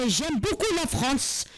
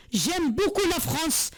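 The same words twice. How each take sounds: The two takes are said the same way.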